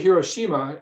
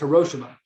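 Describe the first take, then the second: First: The name has an English pronunciation. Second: The name has a Japanese pronunciation. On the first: "we say Hiroshima in English" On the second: "the correct way to say it in Japanese is Hiroshima"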